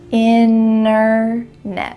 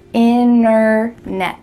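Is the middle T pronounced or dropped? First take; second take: dropped; dropped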